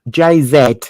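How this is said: The letter Z is said the British way. "Over here, we'd say"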